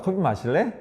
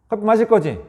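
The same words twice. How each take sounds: First: Softer, gentle invitation; gentle coffee question to spouse; soft offer. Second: Higher, assuming question; mildly pushy coffee question; presumptive question. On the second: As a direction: presume the answer. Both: Shown as a demonstration. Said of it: "이 말이 얼마나 부드러워요".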